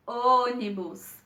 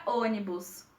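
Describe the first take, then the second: First: "Ônibus" slowed, the first "Ô" held long; prolonged stressed syllable. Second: Said in the usual way. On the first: Shown as a demonstration. Teacher showing where the stress falls, "Ônibus" prolonged on "Ô". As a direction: linger on the "Ô" of "Ônibus". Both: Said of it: "quando nós prolongamos".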